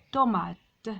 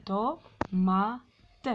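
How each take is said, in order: First: Said in the usual way. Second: "Tomate" split into to, ma, te with pauses; syllable by syllable. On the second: Shown as a demonstration. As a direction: sound out "Tomate" beat by beat. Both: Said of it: "frappez les syllabes".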